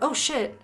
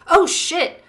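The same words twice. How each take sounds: First: It is said quietly, without shouting. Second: It is shouted loudly. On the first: "or did he say it like, you know" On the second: "did he shout it and go"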